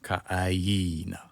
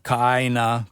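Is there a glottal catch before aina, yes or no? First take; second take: yes; no. First: A glottal catch comes before aina. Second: The words blend with no glottal catch. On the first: The speaker calls it right. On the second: The speaker calls it wrong.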